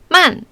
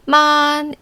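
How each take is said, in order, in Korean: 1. 음이 높은 데서 낮은 데로 떨어져요. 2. 음이 높고 평평하게 길게 유지돼요. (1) "사성은 높은 데서 아래로 떨어지는데" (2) "일성은 [name]처럼 높고 평평하고 길게"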